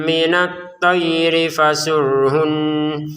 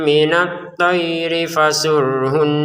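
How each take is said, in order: Both takes have the same delivery.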